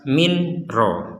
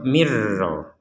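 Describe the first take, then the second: First: The n is pronounced clearly before the r. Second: The n merges fully into the following r. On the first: The speaker calls it wrong. "Kalau dibaca jelas" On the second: The speaker calls it right. "nun sukun dimasukkan ke ro"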